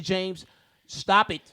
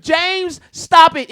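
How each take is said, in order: First: Said in the usual way. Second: Sharp raised call to stop; loud. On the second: Real, not acted. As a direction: cut him off loudly. Telling James to stop.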